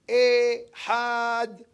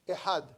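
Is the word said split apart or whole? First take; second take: split; whole. First: The word is split with a break inside. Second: The word is said whole, without a break. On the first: The speaker calls it wrong. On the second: The speaker calls it right.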